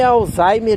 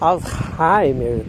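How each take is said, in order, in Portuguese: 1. O nome é pronunciado de um jeito português. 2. O nome é pronunciado de um jeito alemão. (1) "Para mim é Alzheimer e deu" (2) "Tem gente que quer dizer"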